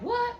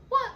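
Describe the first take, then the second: First: Sudden high disbelieving what; exaggerated what. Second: Said in the usual way. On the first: Mimicking the guy's shocked reaction to the news, high and incredulous. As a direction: squeak it out in mock shock. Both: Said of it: "And he like".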